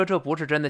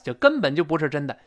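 First: Said in the usual way. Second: 根本 stressed to intensify; emphatic 根本. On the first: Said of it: "本来我说这不是真的". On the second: Shown as a demonstration. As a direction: lean hard on 根本. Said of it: "加强语气了吧".

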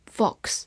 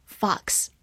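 First: Said in the usual way. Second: "fox" with an open American "ah" vowel; American pronunciation. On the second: Shown as a demonstration. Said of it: "美式发音". (美式发音 fox，元音读开口的 ah)

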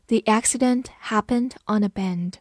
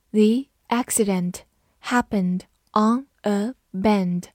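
First: Said in the usual way. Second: Slow, words carefully separated; slow read-through. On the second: Shown as a demonstration. Teacher models the bend example for students, slow read-through. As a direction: read it slowly for learners to copy. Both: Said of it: "好，慢读一遍".

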